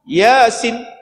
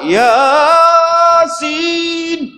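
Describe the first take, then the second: First: The first vowel is cut very short. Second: The first vowel is stretched out very long. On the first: The reciter ignores the rules of recitation. "pendek pula dah" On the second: The reciter overextends the vowel to four beats. "Ada yang ya sampai empat. ... Empat harakat dia balun"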